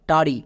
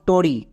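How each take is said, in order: First: The first vowel is an open 'a'. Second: The first vowel is a rounded 'o'. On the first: The speaker calls it right. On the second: The speaker calls it wrong. "নট টরি"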